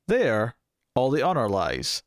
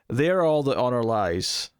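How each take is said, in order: First: It is said with a pause after the first word. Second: It is said without a pause after the first word.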